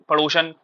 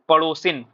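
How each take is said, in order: First: The last syllable has a short 'a' vowel. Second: The last syllable has a short 'i' vowel. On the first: The speaker calls it wrong. "सही शब्द है क्या पड़ोसन? गलत है।" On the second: The speaker calls it right. "फिर सही शब्द क्या है? पड़ोसिन"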